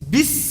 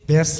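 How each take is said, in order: First: The vowel is a close 'i' sound. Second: The vowel is an open 'e' sound. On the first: The speaker calls it right. "আপনি বাংলায় বিষ কন আমারে" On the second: The speaker calls it wrong. "বেশ না"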